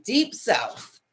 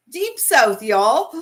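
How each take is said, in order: First: Said in the usual way. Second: Mock Southern. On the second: Playful Southern take on the region.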